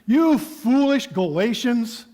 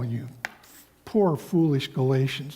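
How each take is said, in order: First: It is said in an angry tone. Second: It is said in a soft, tender tone.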